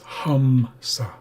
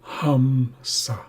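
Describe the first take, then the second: First: The first vowel sounds like 'uh'. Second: The first vowel sounds like 'uh'.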